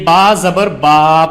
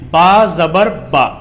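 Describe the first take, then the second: First: The final vowel is stretched out long. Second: The final vowel is short and quick. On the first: The speaker calls it wrong. "एक common mistake होती है जो सभी बच्चे करते हैं" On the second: The speaker calls it right. "आपको इसको खींचना नहीं है, बल्कि आपको इसको एकदम पढ़ना है"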